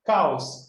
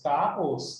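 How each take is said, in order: First: Said in the usual way. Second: "caos" in two syllables, CA-os; hiatus. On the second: Shown as a demonstration. Teacher showing students a hiatus, "caos" split as CA-os. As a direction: separate the A from the O in "caos". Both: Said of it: "não é, é hiato".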